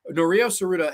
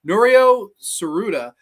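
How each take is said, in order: First: Said in the usual way. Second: "Norio Tsuruda" said slowly and loudly, each syllable spelled out; careful name pronunciation. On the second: Shown as a demonstration. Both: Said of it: "I always have trouble with this guy's name".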